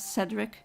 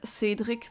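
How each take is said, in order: First: The name is pronounced the English way. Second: The name is pronounced the French way. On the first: "you would um, know it as" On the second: "That's the French pronunciation"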